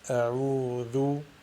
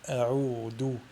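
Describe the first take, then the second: First: The middle consonant is a soft th sound. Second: The middle consonant is a hard d sound. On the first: The speaker calls it right. "il faut tout simplement la prononcer vel" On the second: The speaker calls it wrong. "L'erreur à ne pas faire est de la prononcer del"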